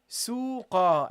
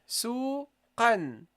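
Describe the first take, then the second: First: The word ends on a vowel, no n. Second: The word ends with an n sound. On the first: The word is at a stop or sentence end. "you drop this and you say suqa" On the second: The word is not at a stop. "Now I pronounce the non-vowel noon"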